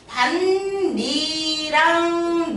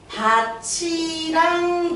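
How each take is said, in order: First: The t sound does not become ch. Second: The t sound changes into a ch sound. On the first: It is a different word for a part of a field. "두 번째 밭이랑 논이랑 이렇게 발음되는 경우도 있어" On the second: It means a field together with something else. "티귿이 이를 만나서 치읓이 됐으니까"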